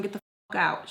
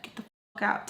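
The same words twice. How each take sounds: First: Said in the usual way. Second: Softly whispered imitation of a command; hushed retold order. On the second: Quoting Spice ordering them out, hushed. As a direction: whisper the order under your breath, quoting her. Repeats the order, demonstrating how said.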